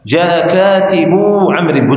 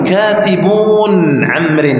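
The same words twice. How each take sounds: First: "كاتب" drawn out slowly to long -uu; plural without noon. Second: "كاتبون" stretched slowly to a sounded final n; wrong plural noon. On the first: Teacher correcting the plural, "كاتب" slowly ending in open long -uu. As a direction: end "كاتب" on uu, no n before "عمرو". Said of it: "بدون النون". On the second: Teacher showing the forbidden plural, "كاتبون" slow with held -uun. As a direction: drag "كاتبون" out and keep its n. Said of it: "ولا تقل". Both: Shown as a demonstration.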